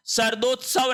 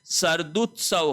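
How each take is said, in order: First: सर्दोत्सव with o after d; wrong pronunciation. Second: सर्दुत्सव with short u after d; correct pronunciation. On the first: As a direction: say सर्दोत्सव as "sar-dot-sav". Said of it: "नहीं होता है". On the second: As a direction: model the "du" in सर्दुत्सव. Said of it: "होता है". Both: Shown as a demonstration.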